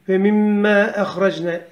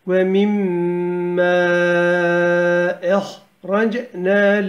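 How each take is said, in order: First: The lengthened vowel is held for one beat. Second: The lengthened vowel is held for four beats. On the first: This is the shortened length used when reciting quickly. "bir elif miktara kadar düşürürler, hızlı okurlar" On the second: This is the full length used when reciting slowly. "yavaş okuduğumuz için dört elif uzatalım"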